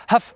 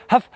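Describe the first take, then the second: No difference in how they are said.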